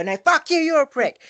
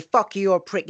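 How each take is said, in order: First: Much higher, louder furious shout; shouted back. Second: Higher, louder mock insult. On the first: Retold or imitated. Shouting the insult back, reacting in kind. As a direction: hurl it straight back, yelling. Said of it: "you go". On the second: Quoting someone who insults you, mock angry. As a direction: fling the insult in mock anger. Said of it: "if they say".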